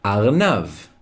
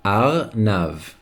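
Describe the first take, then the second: First: Said in the usual way. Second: "Arnav" in two separated syllables; careful model pronunciation. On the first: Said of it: "a rabbit in Hebrew is". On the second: Shown as a demonstration. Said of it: "Say it with me".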